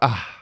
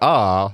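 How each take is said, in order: First: It ends with an audible breathy h sound. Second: It ends cleanly with no breathy h sound. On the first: "then that's got an H sound on the end of it" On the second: "Like, R, no"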